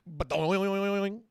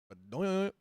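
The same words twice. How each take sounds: First: It is said with lots of energy. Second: It is said flatly without energy.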